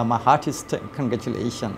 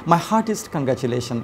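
First: Very slow, each word laid out for learners; slow careful model read. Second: Said in the usual way. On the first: Shown as a demonstration. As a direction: read it slowly, as a model for the class. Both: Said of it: "আমি এভাবে বলার চেষ্টা করি".

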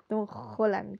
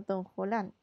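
First: "Holland" with a hard, raspy Spanish J for the H; marked Spanish J. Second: Said in the usual way. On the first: Shown as a demonstration. Artist mocking their own name for the drawing, "Holland" with a heavily marked Spanish J. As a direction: lean on the throaty J sound starting "Holland". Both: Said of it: "con la J ahí como lo marco".

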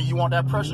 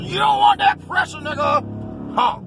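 First: Said in the usual way. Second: Much higher, loud taunting shout; sudden yell. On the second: Real, not acted. Yelling at the driver beside him, high and loud. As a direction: bellow the taunt at him out the window.

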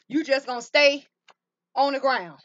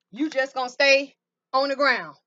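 No difference in how they are said.

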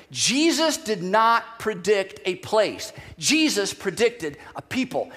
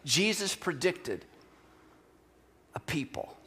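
First: Slow and emphatic, leaning on place and people; a preacher stressing the key contrast; slow emphatic point. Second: Softer, fading into a whisper on a people; quiet echo of the preacher's main point; soft repeat. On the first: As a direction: drive home each word slowly. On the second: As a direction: let it sink in, dropping to a whisper. Same point repeated softly. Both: Acted.

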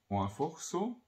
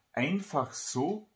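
First: "einfach" said as "oafoch", softer; "einfach" with oa and a dark o; Austrian dialect pronunciation. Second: "Einfach" in careful standard German, ei and clear a; "Einfach so" as written, drawn out; standard German pronunciation. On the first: Title repeated in dialect. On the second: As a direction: say "Einfach so" slowly in High German. Book title said two ways. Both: Shown as a demonstration.

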